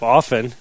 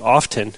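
First: The T sound is left silent in the word. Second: The T sound is pronounced in the word. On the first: "when they're supposed to be silent" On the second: "pronouncing my T's"

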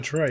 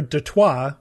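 First: The name is said with an American pronunciation. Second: The name is said with a French pronunciation. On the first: This is the adapted local name. "Americanized to Detroit" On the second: This is the original name. "Detroit was named after Detroit"

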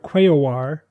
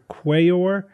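First: The word is said with three syllables. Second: The word is said with two syllables. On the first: The speaker calls it right. "a three-syllable one" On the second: The speaker calls it wrong. "a two-syllable one"

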